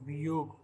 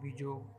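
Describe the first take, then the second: First: The middle consonant is a y sound. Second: The middle consonant is a j sound. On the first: The speaker calls it right. "जैसे वियोग" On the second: The speaker calls it wrong. "ना कि विजोग"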